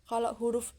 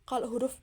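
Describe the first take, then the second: No difference in how they are said.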